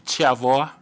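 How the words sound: The name begins with a ch-like sound. This is the pronunciation used in the bearer's home region. "from Mukambani it must be Chavoa"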